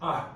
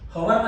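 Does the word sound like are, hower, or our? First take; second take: are; hower. First: It is one syllable, like are. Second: It starts with an h sound, two syllables. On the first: The speaker calls it right. "It's કોલ્ડ properly આર" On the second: The speaker calls it wrong. "Wrong. હવર નથી"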